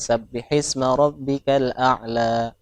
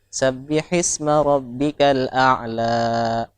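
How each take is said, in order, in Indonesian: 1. Vokal terakhirnya cukup dibaca sebentar. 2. Vokal terakhirnya dibaca terlalu panjang. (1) "Jadi dipendekin dikit" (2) "ujungnya agak kepanjangan"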